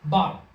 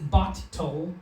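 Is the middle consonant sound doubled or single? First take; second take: single; doubled. First: The middle consonant is pronounced once, smoothly. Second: The middle consonant is pronounced twice, separately. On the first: The speaker calls it right. "we say" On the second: The speaker calls it wrong. "We don't say"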